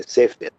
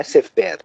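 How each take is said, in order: First: "sefer" stressed on the first syllable, SÉfer. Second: "sefer" stressed on the last syllable, seFÉR; wrong final stress. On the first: Teacher correcting the Hebrew word, "sefer" with stress on SE. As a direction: say "sefer" as SÉfer, falling away after SÉ. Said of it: "a sílaba é tônica". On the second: Teacher showing the mistake to students, "sefer" with stress on FER. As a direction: say "sefer" as seFÉR, higher on the end. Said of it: "não é sefer". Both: Shown as a demonstration.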